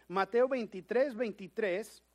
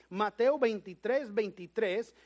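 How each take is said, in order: Both takes have the same delivery.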